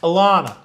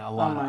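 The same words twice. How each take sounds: First: The name is said with a New York accent. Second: The name is said without a New York accent. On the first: The speaker calls it right. "Pronounce it like you're from New York" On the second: The speaker calls it wrong. "I think I'm saying it wrong right now"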